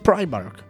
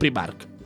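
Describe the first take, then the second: First: It is pronounced with English sounds. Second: It is pronounced with Spanish sounds. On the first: The speaker calls it right. "realmente es Primark" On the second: The speaker calls it wrong. "no Primark"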